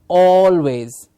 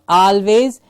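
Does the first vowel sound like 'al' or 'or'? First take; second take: or; al. First: The first syllable is said with an 'or' sound. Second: The first syllable is said with an 'al' sound. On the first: The speaker calls it right. "it is always" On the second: The speaker calls it wrong. "It's not always"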